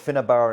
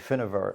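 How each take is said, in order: First: The middle consonant is a hard b sound. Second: The middle consonant is a soft v sound. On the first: The speaker calls it wrong. "So it's called Finnabar" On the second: The speaker calls it right. "Its correct pronunciation would be Finnavar ... It's soft"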